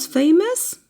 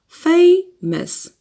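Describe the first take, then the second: First: Said in the usual way. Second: "Famous" split in two, first syllable high. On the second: Shown as a demonstration. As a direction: punch the first syllable of "Famous", pause, then the second. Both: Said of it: "Two syllables".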